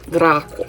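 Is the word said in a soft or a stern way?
stern. It is said sternly, with a harder sound. This is how the speaker hears it from the star system. "But I hear it like Draco, Draco. I hear it very, very stern"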